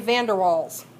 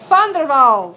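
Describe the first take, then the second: First: The name is said with a typical American pronunciation. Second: The name is said without the typical American pronunciation. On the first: The speaker calls it wrong. "Americans want to say" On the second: The speaker calls it right.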